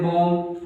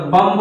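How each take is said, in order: First: "बॉम्ब" ending on M, no final B; silent B. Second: "बम्ब" with a B after the M; spelled-out reading with B. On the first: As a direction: close "बॉम्ब" on the M. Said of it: "बी नहीं पढ़ते हैं". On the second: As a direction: finish "बम्ब" on an audible B. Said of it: "बम्ब होता है लेकिन बोलते हैं". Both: Shown as a demonstration.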